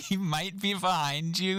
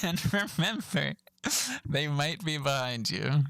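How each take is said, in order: First: Amused disbelief. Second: Slow, mock-ominous safety announcement. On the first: Retold or imitated. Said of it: "I don't know why this line is so funny". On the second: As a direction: draw it out like a spooky warning. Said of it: "I just thought that was funny".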